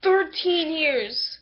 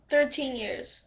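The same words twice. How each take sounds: First: Slow, louder "Thirteen years" with weight on "Thirteen"; emphatic correction. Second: Said in the usual way. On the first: Shown as a demonstration. Correcting the time skip, slow and emphatic "Thirteen". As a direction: lean hard on "Thirteen", drawn out. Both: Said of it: "no, not twelve years".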